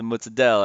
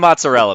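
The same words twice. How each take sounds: First: The word is said with Italian-style pronunciation. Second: The word is said with plain American pronunciation. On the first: "He'll always be like" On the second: "just say the mozzarella, man"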